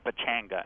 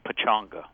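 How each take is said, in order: First: The middle syllable has an 'a' vowel, like 'chang'. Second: The middle syllable has a 'u' vowel, like 'chung'. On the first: The speaker calls it wrong. "When you see it spelled, you want to say Pechanga" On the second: The speaker calls it right. "prefer the name Pechanga ... as though there were you in the middle of there instead of a Chang"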